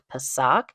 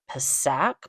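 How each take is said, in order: First: Retry Pisac with an open A, as in sock; second name attempt. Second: Trying out the town's name, Pisac said with a short flat A as in sack; tentative name attempt. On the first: Traveler correcting her go at the town's name, tentative pronunciation. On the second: Traveler attempting a town's name she may butcher, tentative pronunciation. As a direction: say Pisac like "puh-SACK", unsure. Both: Shown as a demonstration. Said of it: "I'm gonna butcher the name".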